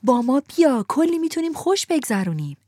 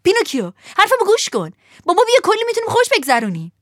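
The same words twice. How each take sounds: First: Put-on chanting boys calling out together; a mild group call, less wild; crowd shouting. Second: High, loud, fast excited yell; shouting. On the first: The boys in the coach calling to Pinocchio, mild shout. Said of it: "صدها نفر از داخل درشکه فریاد زدند". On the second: Lampwick shouting to Pinocchio to come along. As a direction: call out to win him over. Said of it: "فیتیله فریاد زد". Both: A narrator's reading.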